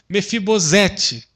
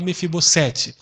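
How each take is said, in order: First: The middle consonant sounds like a z. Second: The middle consonant sounds like an s. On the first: It follows the grammar rule. "uma vez que o S está no meio de duas vogais" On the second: It is how most people say it. "a maioria fala Mefibosete"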